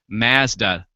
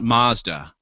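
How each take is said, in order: First: It is said the way Canadians say it. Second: It is said the American, non-Canadian way.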